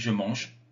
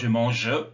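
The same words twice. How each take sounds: First: The final E is silent. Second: The final E is pronounced as a vowel. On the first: The speaker calls it right. "on dit je mange" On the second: The speaker calls it wrong. "on ne prononce pas le E, on ne dit pas je mange"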